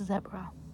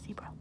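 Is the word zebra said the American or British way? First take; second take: British; American. First: The word is said the British way. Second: The word is said the American way. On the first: "if you're listening from um, Ireland or the U K or Australia, I know this word is actually pronounced zebra" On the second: "as an American we say zebra"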